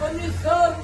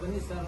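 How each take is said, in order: First: It is said dramatically, with heightened stage expression. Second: It is said plainly, like everyday conversation. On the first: This is how one greets when acting on stage. "ಇದು ಅಭಿನಯ" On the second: This is how one greets in real life. "ಇದು ಸಹಜ"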